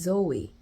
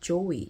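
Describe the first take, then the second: First: The name begins with a buzzing z sound. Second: The name begins with a j sound. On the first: The speaker calls it right. "My name is Zoe, not Joey" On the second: The speaker calls it wrong. "J 발음은 있어도 즈 발음... 저희 언어에서는 없단 말이에요"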